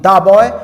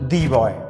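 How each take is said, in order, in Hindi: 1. 'The' को छोटे 'thuh' स्वर के साथ बोला जाता है। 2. 'The' को लंबे 'thee' स्वर के साथ बोला जाता है। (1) "तो इसको बोलेंगे हम द बॉय" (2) "ना कि दी बॉय"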